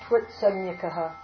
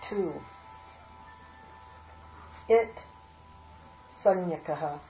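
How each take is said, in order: First: The first two words are merged into one. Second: The first two words are said apart.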